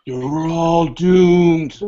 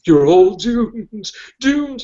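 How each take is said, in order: First: Slow ominous raspy drawl; creepy doomsday warning, drawn out; Crazy Ralph impression. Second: High, slow ominous drawl; Crazy Ralph impression. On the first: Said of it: "a Walt Gorney Friday the Thirteenth reference". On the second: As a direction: croak the doom warning slowly. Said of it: "Remember Crazy Ralph?".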